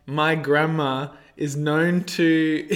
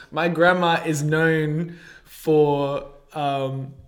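First: Breaking up into laughter mid-sentence; can't get through it for laughing. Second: Slow, still shaky from laughing; regaining composure after a laughing fit; after laughing hard. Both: Real, not acted. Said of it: "sorry, let me compose myself".

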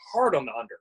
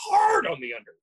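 First: Said in the usual way. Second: HARD stretched out and pitched very high; exaggerated, high-pitched punch on Hard; stress on HARD. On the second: Real, not acted. Repeats phrase to hammer it home.

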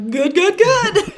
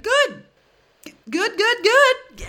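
First: High, slow, louder strained repeat through a laugh; imitating the friend's fake-fine answer, high and strained; forced cheery good. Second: High and slow, a forced cheery friend; strained fake "good". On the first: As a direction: replay the friend's unconvincing good. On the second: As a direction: squeeze out a strained, unconvincing good. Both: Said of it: "the intonation and his, like, wide-eyed stare".

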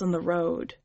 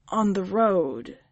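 First: Said in the usual way. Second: "On the road" said slowly, with weight; emphatic. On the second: A narrator's reading. Leah answering the witch, "On the road" slow and emphatic. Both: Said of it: "she emphasized".

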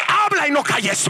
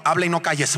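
First: High, forceful cry; commanding shout. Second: Said in the usual way. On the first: Retold or imitated. Preacher re-enacts the Lord's command to him, commanding shout. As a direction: proclaim it as a ringing order. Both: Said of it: "así me lo dijo".

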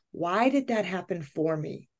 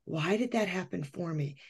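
First: Softly wondering to herself; quiet self-questioning. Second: Nearly under her breath, trailing off; much quieter self-questioning. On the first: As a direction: ask it inward, a bit softer. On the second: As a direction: let it sink away, very soft. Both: Retold or imitated. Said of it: "And I thought".

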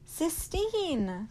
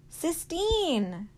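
First: High, loud scream of her name. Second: High, loud call while running; shouting her name. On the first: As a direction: scream it across the distance. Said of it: "he screamed". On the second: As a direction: call her from far away, full voice. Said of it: "he shouted as he ran". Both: Acted.

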